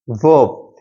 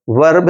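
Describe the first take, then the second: First: वर्ब with the r silent, one long vowel; corrected वर्ब pronunciation. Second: वर्ब with the r tapped before the b; mispronounced वर्ब. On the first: English teacher modelling the word for students, corrected वर्ब with silent r. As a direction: drop the r in वर्ब, lower pitch. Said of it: "इसका correct pronunciation है". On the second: English teacher showing students how not to say it, mispronounced वर्ब. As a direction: sound out the r in वर्ब. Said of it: "इसका सही correct, इसका correct pronunciation है". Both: Shown as a demonstration.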